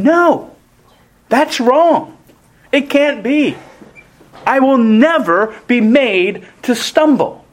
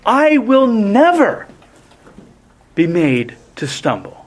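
First: Peter flatly refusing, rising up; voiced Peter brushing Jesus off; defiant Peter. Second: Stamp I and never, trail off on stumble; emphatic retold Peter, I stressed; emphatic denial. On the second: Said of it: "defies this by emphatically saying".

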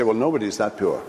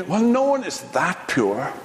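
First: Fast, lower blurt. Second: Lightly voiced sceptical reader; a hint of a doubting aside, rising at the end; tempted doubt. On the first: Pretend. Reader suddenly judging Job, fast blurt. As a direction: blurt it out quickly, dismissively. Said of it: "you sort of suddenly blurt out". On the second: Reader tempted to doubt Job's innocence, light scepticism. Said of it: "you might be tempted to say".

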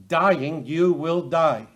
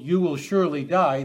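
First: "Dying" set apart, then "you will die" slow and firm; doubled Hebrew emphasis. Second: Said in the usual way. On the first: Shown as a demonstration. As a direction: weigh each word of "you will die" slowly. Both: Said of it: "it's just doubled".

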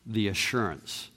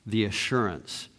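No difference in how they are said.

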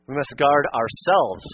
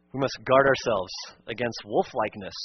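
First: Ourselves leaned on, slow and heavy; slow down and press ourselves; stress on ourselves. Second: Said in the usual way. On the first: Shown as a demonstration. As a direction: hammer home guard ourselves. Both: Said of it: "Emphasis on ourselves".

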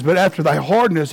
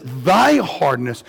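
First: Said in the usual way. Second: THY stretched out and punched; emphatic THY, set apart before "hardness"; stress on THY. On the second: Shown as a demonstration. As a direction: lean hard on the word THY. Verse repeated to single out thy.

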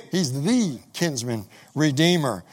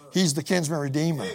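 First: He's the kinsman redeemer said slower, each word weighed; slow emphatic repeat. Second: Said in the usual way. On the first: Real, not acted. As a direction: lean on kinsman redeemer, slowly.

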